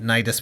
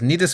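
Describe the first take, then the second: First: The name is said with a Western-style pronunciation. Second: The name is said with a Japanese-style pronunciation. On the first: "Nidus would be the Western pronunciation" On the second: "Nidus would be the Japanese pronunciation"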